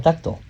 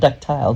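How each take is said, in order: First: The last syllable sounds like 'tal'. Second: The last syllable sounds like 'tile'. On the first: The speaker calls it right. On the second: The speaker calls it wrong.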